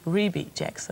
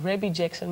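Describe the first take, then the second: First: The first name sounds like 'Reby'. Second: The first name sounds like 'Rabbi'. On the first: The speaker calls it right. "proper pronunciation is" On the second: The speaker calls it wrong. "maar dat zeggen we helemaal fout"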